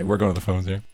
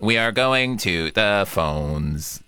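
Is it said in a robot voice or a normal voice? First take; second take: normal voice; robot voice. First: It is said in a natural voice. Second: It is said in a robotic voice.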